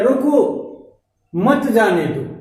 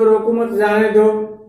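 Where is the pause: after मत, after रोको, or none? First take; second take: after रोको; none. First: There is a pause after रोको. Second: It is said evenly without a pause.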